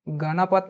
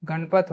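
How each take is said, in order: First: गणपत said as ga-na-pat, every vowel sounded; गणपत in three even syllables, ga-na-pat; गणपत with the middle a kept, ga-na-pat; wrong pronunciation. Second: गणपत said as gan-pat, middle vowel dropped; गणपत in two syllables, gan-pat; गणपत run together as gan-pat; correct pronunciation. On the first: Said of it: "गणपत नहीं होता है". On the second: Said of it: "गणपत होता है". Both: Shown as a demonstration.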